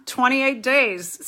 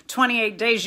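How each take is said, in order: First: "Twenty-eight days" said slowly, each word weighted, falling; drawn-out stress on "Twenty-eight days"; slow emphatic. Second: Said in the usual way. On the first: Shown as a demonstration. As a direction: lean on "Twenty-eight" and let it drop. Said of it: "Stay the course". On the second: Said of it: "You just gotta stay".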